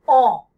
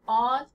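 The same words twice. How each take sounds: First: "on" louder, lips rounded, vowel nasal, tongue back; louder French nasal "on". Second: "on" with the open American vowel, unrounded; the wrong take, plain American "on". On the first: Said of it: "hit the French on sound". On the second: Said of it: "instead of on". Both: Shown as a demonstration.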